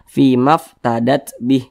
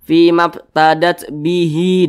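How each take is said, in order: First: The last word ends on a bare h sound. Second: The last word ends with a long i vowel. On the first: The reader stops at this word. "huruf H tidak dibaca panjang, makanya kita sukunkan atau kita matikan" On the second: The reader continues without stopping. "kita langsung sambung, ... maka huruf H ini kita baca panjang"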